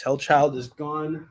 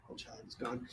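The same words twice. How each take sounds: First: Said in the usual way. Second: Whispered aside, voiceless. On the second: Shown as a demonstration. Seller whispering the sold-out title to himself. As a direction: breathe the words without voice. Repeats it, second time whispered.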